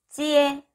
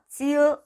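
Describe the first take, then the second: First: The syllable ends with an 'eh' vowel. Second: The syllable ends with an 'uh' vowel. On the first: The speaker calls it right. "지에 라고 해야 돼요" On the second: The speaker calls it wrong. "지으 라고 하면 삐 들리십니다"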